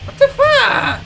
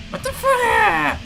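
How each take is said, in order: First: High, sudden what the fuck; jump-scare yelp of disbelief; startled outburst. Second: Stretched-out, slow what the fuck; dazed slow repeat; slow disbelief. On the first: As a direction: blurt it out in shock. Startled by the chasing enemy. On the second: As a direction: drag each word in stunned disbelief. Repeats it, drawn out slowly. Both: Real, not acted.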